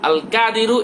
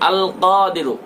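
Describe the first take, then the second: First: The first consonant is an ordinary front k. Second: The first consonant is made deep in the throat. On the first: The speaker calls it wrong. "এটা বললে হবে না" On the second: The speaker calls it right. "ক গলার মধ্য থেকে"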